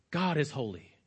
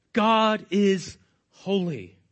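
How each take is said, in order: First: Low, soft statement of a solemn truth; understated statement. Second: "God is holy" very slow, each word weighted; solemn emphatic repeat. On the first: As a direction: say it softly and low, without emphasis. States the message, then repeats it weightier. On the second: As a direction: draw out "God is", pause, then set down "holy". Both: Shown as a demonstration.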